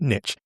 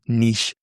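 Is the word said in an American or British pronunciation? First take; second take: American; British. First: The word is said with an American pronunciation. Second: The word is said with a British pronunciation. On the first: "I'm an American, so I pronounce it" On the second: "for the British people"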